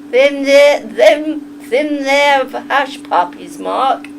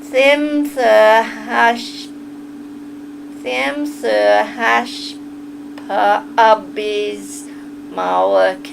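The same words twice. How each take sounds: First: Slow, halting Southern drawl, run together; Southern accent. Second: Very slow, drawn-out Southern drawl; stretched Southern vowels with gaps between phrases; Southern accent. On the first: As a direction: have a stumbling go at a Southern accent. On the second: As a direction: practise a Southern drawl word by word. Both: Shown as a demonstration. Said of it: "I'm trying to learn a southern accent".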